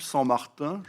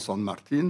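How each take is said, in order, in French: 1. Le nom se prononce à la française. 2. Le nom se prononce à l'argentine, en espagnol. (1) "je prononce à la française" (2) "si j'étais argentin, je dirais sûrement San Martin"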